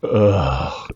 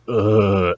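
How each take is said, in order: First: Genuinely fed-up groan, imitated; weary "ugh", less of a performance; John Heater. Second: Put-on character groan; exaggerated exasperated "ugh" in imitation; Napoleon Dynamite. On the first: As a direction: groan like an actor sick of his catchphrases. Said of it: "John Heater is fucking sick of this shit". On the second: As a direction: groan as the movie character's catchphrase noise. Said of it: "not the Napoleon Dynamite". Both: Shown as a demonstration.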